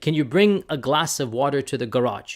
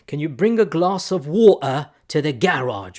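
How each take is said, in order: First: It is said in an American accent. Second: It is said in a British accent.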